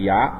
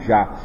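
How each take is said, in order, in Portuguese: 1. A palavra começa com som de 'y'. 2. A palavra começa com som de 'j'. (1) "Existe Y" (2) "Na verdade não é Já, não existe J no hebraico"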